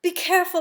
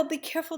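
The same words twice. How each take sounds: First: Higher, louder urgent warning; frightened mother's louder call; anxious cry. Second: Higher but softer urgent warning; mother stifling her alarmed warning; hushed anxious plea. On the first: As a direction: cry it out in alarm for the child. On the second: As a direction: pull the cry back to a hush. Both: Acted. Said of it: "I want to cry out".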